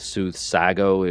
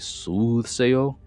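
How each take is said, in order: First: The middle consonant is a hard G sound. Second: The middle consonant is a Y sound. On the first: The speaker calls it wrong. "it wouldn't be soothsago" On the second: The speaker calls it right. "the G ... says yeah"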